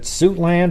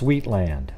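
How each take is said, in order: First: The first syllable sounds like 'suit'. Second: The first syllable sounds like 'sweet'. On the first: "is it Suitland" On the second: "or is it pronounced Sweetland?"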